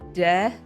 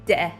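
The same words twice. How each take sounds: First: The first consonant is plain and soft. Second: The first consonant is hard and tense. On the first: "instead of" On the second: "a harder consonant sound"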